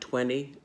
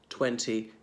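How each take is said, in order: First: The second T sound is left out. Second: Both T sounds are clearly pronounced. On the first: "some people pronounce it more like twenty, skipping the second T" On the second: "listen to how I say these following words"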